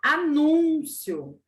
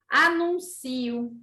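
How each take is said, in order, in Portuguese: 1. A tônica cai na sílaba 'nu'. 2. A tônica não cai em 'nu'. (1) "Na outra palavra, sílaba tônica, nu" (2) "Olha a sílaba tônica onde foi parar"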